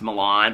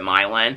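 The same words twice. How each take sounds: First: It is said the common, familiar way. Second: It is said the local Indiana way. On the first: This is how most people say the name. "all of us would pronounce Milan" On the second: This is how the town's locals say the name. "but they pronounce it Milan"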